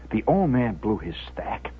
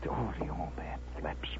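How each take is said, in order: First: Low, soft storytelling voice; hushed narration. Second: Hushed, voiceless narration; awed whisper. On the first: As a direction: state it quietly and gravely. Same event told in low voice. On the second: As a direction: whisper it in dread of what is coming. Hushed awe as father snaps. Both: A narrator's reading.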